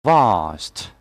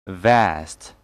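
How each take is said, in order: First: "Vast" with long "ah"; British pronunciation. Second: "Vast" with flat "a" as in cat; American pronunciation. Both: Shown as a demonstration. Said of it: "And American English will be".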